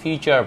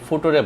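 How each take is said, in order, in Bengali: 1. শব্দটি স্পষ্ট, সহজে চেনা যায় এমন ভাবে উচ্চারণ করা হয়েছে। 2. শব্দটি বিকৃত, চেনা যায় না এমন ভাবে উচ্চারণ করা হয়েছে। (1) "ততক্ষণ পর্যন্ত আপনি নাম্বার পাবেন" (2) "যেটা আসলে কেউই বুঝবে না"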